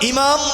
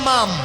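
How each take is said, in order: First: The first vowel is an 'i' sound. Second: The first vowel is an 'e' sound. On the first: The speaker calls it right. "ইমাম বলি" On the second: The speaker calls it wrong. "স্পষ্ট লেখা আছে এমাম"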